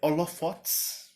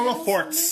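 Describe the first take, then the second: First: There is no r sound before the t. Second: There is an r sound before the t. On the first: The speaker calls it right. "é, é holofotes" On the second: The speaker calls it wrong. "Então eu vou falar holofortes"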